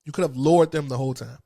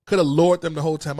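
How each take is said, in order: First: Said in the usual way. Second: "Could" hit hard, the rest rushed out louder; louder, faster repeat. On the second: Real, not acted. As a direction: push "Could" hard and speed up, indignant. Repeats the accusation, then harder.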